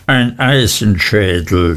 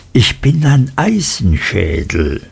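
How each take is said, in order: First: Matter-of-fact, falling repetition; understated mouthpiece; henchman's echo. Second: Lightly voiced emphatic self-declaration; hard-headed tyrant, understated; boastful schoolmaster. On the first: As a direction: echo the master dutifully, without his flourish. Henchman echoes his master. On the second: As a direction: declare yourself immovable, leaning on the words. Creakle boasts of his hardness. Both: A narrator's reading.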